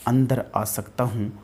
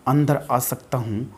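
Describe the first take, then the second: No difference in how they are said.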